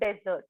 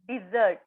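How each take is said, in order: First: The first syllable sounds like 'deh'. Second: The first syllable sounds like 'dih'. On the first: The speaker calls it wrong. "Not डेझर्ट" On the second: The speaker calls it right. "It is डिझर्ट"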